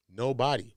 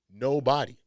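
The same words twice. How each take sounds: The two takes are said the same way.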